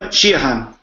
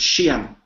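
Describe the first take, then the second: First: The name is said with three syllables. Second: The name is said with two syllables. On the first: This is the original full form of the name. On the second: This is the shortened modern form, often a surname.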